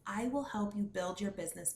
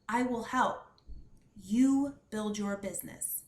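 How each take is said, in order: First: It flows without a break after help. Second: There is a clear stop after help.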